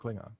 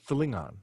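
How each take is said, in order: First: The word begins with a plain hard K sound. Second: The word begins with a guttural, non-K sound. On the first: The speaker calls it wrong. "it's not Klingon" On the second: The speaker calls it right. "it's like a guttural sound"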